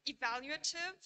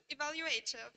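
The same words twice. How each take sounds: First: "Evaluative" stressed on VAL, with a reduced A after it; "Evaluative" as e-VAL-uative, rising as first of two; stress shift demo. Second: "evaluative" stressed on A, said as a full AY; "evaluative" as evalu-AY-tive, falling at the end; stress shift demo. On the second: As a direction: move the main stress of "evaluative" late, onto AY. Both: Shown as a demonstration. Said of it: "exhibit variation in their primary stress".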